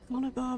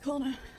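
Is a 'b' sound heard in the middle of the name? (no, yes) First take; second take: yes; no. First: The name is said with a b sound. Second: The name is said without a b sound. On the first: The speaker calls it wrong. "not Conobar" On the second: The speaker calls it right. "The B H is silent. It's Connor"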